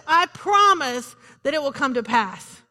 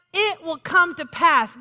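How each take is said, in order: First: Said in the usual way. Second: Slowly, every word weighted; slow emphatic repeat. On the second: Acted. Pastor assuring the church God's promise holds, slow and emphatic. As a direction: lean into each word as a firm assurance.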